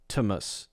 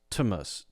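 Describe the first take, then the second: Both takes have the same delivery.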